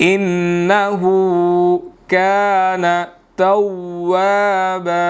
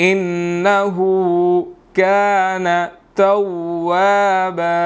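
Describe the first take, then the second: No difference in how they are said.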